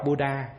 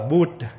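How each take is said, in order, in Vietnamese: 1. Từ kết thúc bằng một nguyên âm ngắn. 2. Từ kết thúc bằng phụ âm, không có nguyên âm cuối. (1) "chứ không có đọc Buddha" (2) "nó đọc là Bud"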